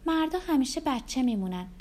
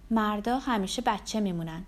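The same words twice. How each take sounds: First: Higher, knowing woman's remark; lightly voiced Rebecca. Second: Understated, close to the usual voice; lightly voiced narrator's reply. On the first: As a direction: pitch it up as a teasing confidence. Rebecca repeats the heroine's remark. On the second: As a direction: say it as a modest, simple reply. Narrator voices her own reply.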